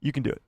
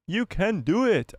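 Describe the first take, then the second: First: Said in the usual way. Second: Slow, higher, drawn-out cheering-on; mock pep talk, pitched up; playful encouragement. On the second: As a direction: coax them with exaggerated, stretched words. Repeats encouragement in played-up voice.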